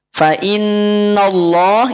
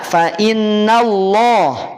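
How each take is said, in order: First: The vowel after the nun sounds thick, like o. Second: The vowel after the nun sounds thin, like a. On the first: The speaker calls it wrong. "Yang pertama, fa inno, ah jadi inno" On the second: The speaker calls it right. "Ketika tipis maka harokat fathah itu bunyinya menjadi vokal A"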